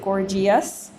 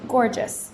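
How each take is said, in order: First: An extra 'ee' vowel is heard before '-ous'. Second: No extra vowel is heard before '-ous'. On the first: The speaker calls it wrong. "We don't pronounce it" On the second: The speaker calls it right. "we pronounce it gorgeous, because the E is borrowed to change the G into a soft G"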